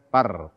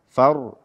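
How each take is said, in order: First: It starts with a p sound. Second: It starts with a breathy f sound. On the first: The speaker calls it wrong. "bukan par" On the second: The speaker calls it right. "membaca huruf fa tanpa hamas"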